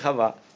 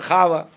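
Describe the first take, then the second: First: The stress is on the last syllable. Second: The stress is on the first syllable. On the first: "а не хава" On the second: "Если бы говорили на ашкеназийском иврите, то было бы хава"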